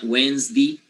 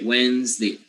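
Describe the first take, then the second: First: The final vowel is a tense e. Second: The final vowel is a lax e. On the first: The speaker calls it wrong. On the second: The speaker calls it right.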